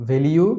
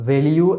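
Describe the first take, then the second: No difference in how they are said.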